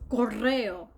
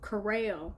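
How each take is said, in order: First: The R sound is rolled. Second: The R sound is flat, not rolled. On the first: "which I now can say as correo" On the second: "before I could roll my R's, all I could say was"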